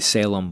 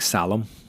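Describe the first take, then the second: First: The name is given an Anglicized English pronunciation. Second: The name is given a non-English pronunciation. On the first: The speaker calls it wrong. "people say Salem, but that's an Anglicized idea" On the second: The speaker calls it right. "It's actually pronounced like Salem"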